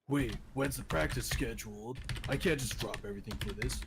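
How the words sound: It is said in a flat, monotone voice. The speaker calls it wrong. "he's not like monotone, like constantly"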